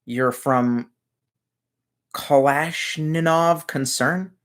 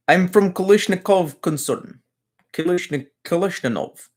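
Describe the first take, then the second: First: Said in the usual way. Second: Higher, hammed-up Russian accent on "Kalashnikov"; a viewer asked for it, so a mock Russian accent. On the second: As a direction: ham it up like a Russian gun salesman. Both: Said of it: "Put on a Russian accent and say".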